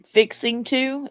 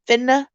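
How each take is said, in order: First: The phrase is said in its full form. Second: The phrase is squeezed into two short syllables. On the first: This is how Southerners do not say it. "it's not fixing to" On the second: This is how Southerners say it. "it's finna"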